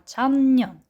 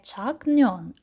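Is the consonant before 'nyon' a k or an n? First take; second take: n; k. First: A nasal n sound comes before the 'nyon' syllable. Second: A k sound comes before the 'nyon' syllable. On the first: The speaker calls it right. "а чанньон" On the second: The speaker calls it wrong. "а чому ось тут ми прочитали не чакньон"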